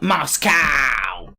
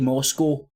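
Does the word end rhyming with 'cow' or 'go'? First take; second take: cow; go. First: It is said the American way, ending like 'cow'. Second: It is said the British way, ending like 'go'.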